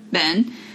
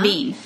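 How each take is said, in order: First: The vowel sounds like the one in 'bed'. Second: The vowel sounds like the one in 'bean'. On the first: "the name Ben, I'm saying it, trying to, you know, put emphasis on the correct pronunciation" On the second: "Ben would be Bean"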